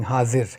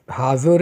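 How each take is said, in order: First: "Hazir" with a short i second vowel; "Hazir", unrounded i in the last syllable; Hazir pronunciation. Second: "Hazur" with an oo-like second vowel; "Hazur", ending in -oor; Hazur pronunciation. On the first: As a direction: say "Hazir", ending in -ir. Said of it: "saying Hazir". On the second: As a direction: say "Hazur", rounding the last vowel. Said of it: "this Hazur is actually the way of sing-, saying Hazir". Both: Shown as a demonstration.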